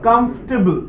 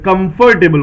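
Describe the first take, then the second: First: The '-table' ending is said softly and reduced. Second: The '-table' ending is said fully and with force. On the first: The speaker calls it right. "ये टेबल word को soft करिए" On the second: The speaker calls it wrong. "कई बार हम लोग इसे जोर दे के बोलते हैं"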